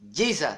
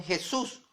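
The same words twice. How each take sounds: First: "Jesus" as JEE-sa, English style; English pronunciation. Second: "Jesús" as heh-SOOS, stress at the end; Spanish mispronunciation. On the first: Preacher showing Catholics' source name, "Jesus" said JEE-sa in English. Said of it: "mala pronunciación a ese nombre inglés". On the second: Preacher showing what converts said, "Jesús" as heh-SOOS. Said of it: "sino decían Jesús". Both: Shown as a demonstration.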